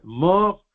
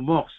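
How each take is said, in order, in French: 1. Le mot se termine sans son s. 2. Le mot se termine par un son s.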